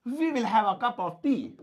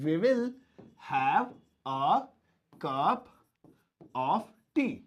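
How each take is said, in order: First: Said in the usual way. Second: "we will... have... a... cup... of tea", with long pauses; word by word. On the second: Shown as a demonstration. ("we will have a cup of tea" को रुक-रुककर बोलें) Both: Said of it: "ये बोलेंगे".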